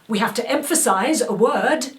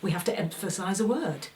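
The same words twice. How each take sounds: First: It is pushed hard with big, projected energy. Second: It has moderate, lively, conversational energy. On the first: The speaker calls it wrong. "which I might do on stage to make it reach" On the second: The speaker calls it right. "to actually say"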